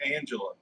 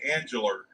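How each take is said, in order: First: It ends without an R sound. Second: It ends with an added R sound, English-style.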